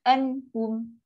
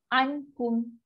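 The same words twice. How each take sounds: Both takes have the same delivery.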